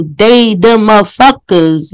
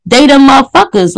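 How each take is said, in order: First: Slower, leaning on each word of they the motherfuckers; slow emphatic repeat. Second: Said in the usual way. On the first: Shown as a demonstration. Streamer repeats it to viewers, slow and emphatic. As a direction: drag out they the motherfuckers for weight.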